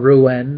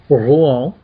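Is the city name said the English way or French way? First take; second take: English; French. First: The name is said with an English pronunciation. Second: The name is said with a French pronunciation. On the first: "if you, you know, you want to put it that way" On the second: "as the French pronounce it properly"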